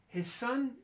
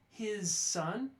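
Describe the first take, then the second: First: The final z of his becomes a voiceless s. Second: Each word is articulated strongly and separately. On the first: The speaker calls it right. "You notice the z goes away" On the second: The speaker calls it wrong. "I was articulating too strongly"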